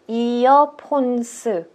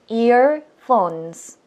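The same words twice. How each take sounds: First: The word is said in four syllables. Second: The word is said in two syllables. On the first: The speaker calls it wrong. "저희는 earphones 사 음절로 읽게 된다" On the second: The speaker calls it right. "earphones 이렇게 해서 끝나야 되는데"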